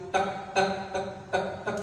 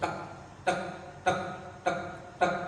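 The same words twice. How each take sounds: First: The ticks come at the quickest pace. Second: The ticks come at a slow, steady pace. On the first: Stress is even higher. "Semakin tinggi lagi" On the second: The heart is beating normally.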